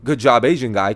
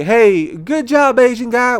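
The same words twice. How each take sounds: First: Said in the usual way. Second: Mocking the well-meaning guy. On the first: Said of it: "it's not good to say". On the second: Comedian mocks a stranger's praise, high mock-cheerful voice. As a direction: parody an overeager stranger's praise. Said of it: "Is it the right way to say".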